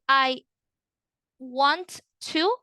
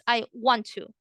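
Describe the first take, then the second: First: Both T sounds are pronounced separately. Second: The two T sounds merge into one. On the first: The speaker calls it wrong. "you're not going to say I want to" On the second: The speaker calls it right. "You're going to combine the two T's. So it sounds like this"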